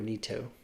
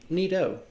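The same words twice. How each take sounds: First: The T sound is clearly pronounced. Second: The T sound is softened, not fully pronounced. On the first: "do you pronounce the T" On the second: "or is it just like Nito?"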